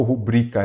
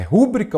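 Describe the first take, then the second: First: "rubrica" stressed on BRI; stress on second syllable. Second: "rúbrica" stressed on RÚ; stress on first syllable. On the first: Teacher offering the correct option, "rubrica" with stress on BRI. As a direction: put the weight on the middle of "rubrica", ru-BRI-ca. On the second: Teacher offering the mistaken option, "rúbrica" with stress on RÚ. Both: Shown as a demonstration. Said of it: "Ela é rubrica".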